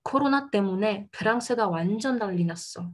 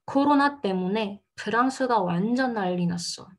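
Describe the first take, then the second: First: Said in the usual way. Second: Careful model sentence with "난리" as nal-li; slower careful reading. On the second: Shown as a demonstration. Teacher rereading the example for learners, slower careful reading. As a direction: read it a little more gently, word by word. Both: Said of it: "Je relis un petit peu plus doucement".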